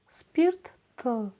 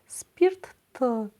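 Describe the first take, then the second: The two takes are said the same way.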